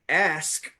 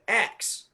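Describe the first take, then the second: First: The word ends with an 'sk' sound. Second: The word ends with a 'ks' sound. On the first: "instead of pronouncing the word ask" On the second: "he was saying ax"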